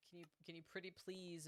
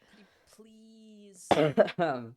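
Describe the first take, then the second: First: Very quiet, quick, higher-pitched pleading; soft plea. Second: High, slow, hammed-up begging; drawn-out plea. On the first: Real, not acted. Streamer asking viewer Kiki a favour, softly pleading. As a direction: ask very softly, almost under your breath. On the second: Streamer begging viewer Kiki, hammed-up drawn-out pleading. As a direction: stretch out the please in a higher voice.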